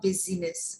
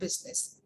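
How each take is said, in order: First: The middle i is sounded, giving three syllables. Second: The middle i is silent, giving two syllables. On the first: The speaker calls it wrong. "It's not busyness" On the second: The speaker calls it right. "silent I"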